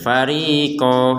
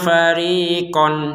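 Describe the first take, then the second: First: It ends on a long vowel without n. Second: It ends with a clear n sound. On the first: The reading stops after this word. "Karena kita berhenti" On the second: The reading continues without stopping. "harusnya seperti itu"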